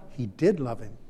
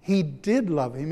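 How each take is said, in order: First: Did leaned on, lower and softer; soft stress on did. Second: Did pushed up with a rising tune; emphatic did. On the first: Preacher musing softly, did stressed gently. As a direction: quietly insist on the word did. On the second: Preacher insisting to congregation, did stressed firmly. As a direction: lift and insist on the word did. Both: Shown as a demonstration.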